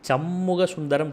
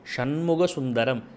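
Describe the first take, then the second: First: The name begins with a plain s sound. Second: The name begins with a sh sound. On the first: The speaker calls it wrong. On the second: The speaker calls it right.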